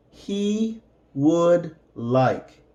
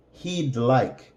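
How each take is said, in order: First: "He would like" said slowly, each word apart; slow, careful teacher read; slow separated words. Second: Said in the usual way. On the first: Shown as a demonstration. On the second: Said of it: "and then with the contraction".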